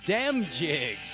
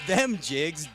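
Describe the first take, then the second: First: The first word begins with a d sound. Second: The first word begins with a th sound. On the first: The speaker calls it right. "That's D E M jigs" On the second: The speaker calls it wrong. "Not them jigs"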